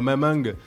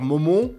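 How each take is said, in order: First: The vowels are open a sounds, Southern style. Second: The vowels are pronounced as a closed o. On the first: The speaker keeps a regional accent. "ton accent du Sud" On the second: The speaker tries to hide a regional accent. "avec un O, tu vois, fermé"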